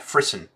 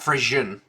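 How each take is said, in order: First: The word ends like the word frisson. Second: The word ends like the word Frisian. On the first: The speaker calls it right. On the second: The speaker calls it wrong. "Not Frisian, because that wouldn't have an I"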